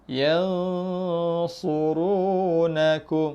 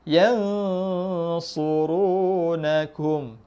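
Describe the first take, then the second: Both takes have the same delivery.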